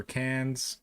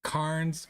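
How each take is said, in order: First: Cairns slowly as CANZ, without r; alternative pronunciation. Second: Cairns slowly as KARNZ, r sounded; own pronunciation. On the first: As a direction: say Cairns like tin cans. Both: Shown as a demonstration. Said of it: "That's how I say it".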